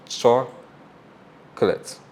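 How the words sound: The word is said with English vowel sounds. "That's English"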